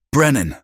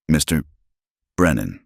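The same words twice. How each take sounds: First: Name barked out high and loud; sharp shout. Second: Steady. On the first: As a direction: call him like a whip crack. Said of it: "The voice cracked like a whip". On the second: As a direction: keep it composed and even. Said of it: "her voice steady despite everything". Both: Acted.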